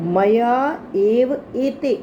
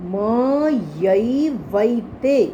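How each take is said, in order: First: The phrase is split into three separate words. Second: The phrase is run together as one word.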